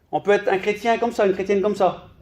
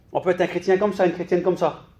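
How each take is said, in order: The two takes are said the same way.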